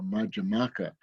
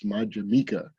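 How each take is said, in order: First: The vowel before the last syllable sounds like 'ah'. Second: The vowel before the last syllable sounds like 'ee'. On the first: The speaker calls it right. "but it's not uh, Madhyamaka" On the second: The speaker calls it wrong. "mispronounced often as Madhyamika"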